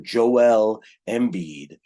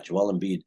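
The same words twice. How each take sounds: First: The name is said in an exaggerated announcer style. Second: The name is said plainly, in an ordinary way.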